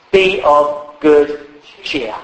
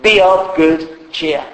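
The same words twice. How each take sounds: First: "Be of good cheer" drawn out slowly; slow, weighted King James reading; slow solemn quote. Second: "Be of good cheer" repeated slowly and firmly; slow echo. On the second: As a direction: press it home slowly. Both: Shown as a demonstration. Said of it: "King James puts it like this".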